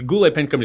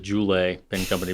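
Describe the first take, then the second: First: Goulet begins with a hard G sound. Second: Goulet begins with a soft J sound. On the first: "still going to be spelled the same" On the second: "it's going to be pronounced the Goulet Pen Company because their G is a J"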